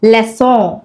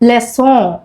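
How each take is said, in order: Both takes have the same delivery.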